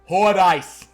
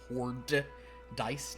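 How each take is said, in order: First: It is said in a Boston accent. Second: It is said in a plain accent.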